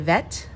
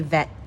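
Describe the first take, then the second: First: The final T is fully released. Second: The final T is stopped, not released. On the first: "you can say vet" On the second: "I usually say vet"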